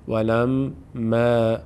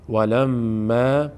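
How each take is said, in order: First: The long a after m sounds light and thin. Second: The same.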